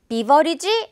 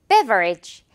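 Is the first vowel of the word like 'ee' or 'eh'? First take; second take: ee; eh. First: The first vowel sounds like 'ee'. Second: The first vowel sounds like 'eh'. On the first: The speaker calls it wrong. "비버리지라고 발음 실수를 하는 것 같더라고요" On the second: The speaker calls it right. "베라고 해줘야 돼요"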